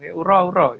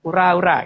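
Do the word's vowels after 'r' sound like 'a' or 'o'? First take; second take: o; a. First: The vowel after each 'r' sounds like 'o'. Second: The vowel after each 'r' sounds like 'a'. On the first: The speaker calls it wrong. "bukan uro-uro gitu" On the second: The speaker calls it right. "Ura-ura gitu, ngomongnya gitu"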